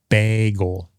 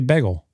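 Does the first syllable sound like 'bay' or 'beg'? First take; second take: bay; beg. First: The first vowel sounds like 'bay'. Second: The first vowel sounds like 'beg'.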